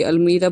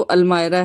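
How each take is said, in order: First: Said in the usual way. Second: अलमायरा said as al-my-ra; correct pronunciation shown. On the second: Shown as a demonstration. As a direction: give अलमायरा an "eye" vowel, not "ee". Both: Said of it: "जो इसकी pronunciation है".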